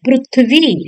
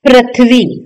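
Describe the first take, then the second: First: The first syllable sounds like 'pru'. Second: The first syllable sounds like 'pri'. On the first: The speaker calls it right. "प्रू कहलाता है" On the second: The speaker calls it wrong. "न कि"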